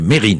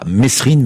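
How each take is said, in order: First: No s sound is heard in the middle. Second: An s sound is heard in the middle. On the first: The speaker calls it right. "mais Mérine" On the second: The speaker calls it wrong. "on ne disait pas Mesrine"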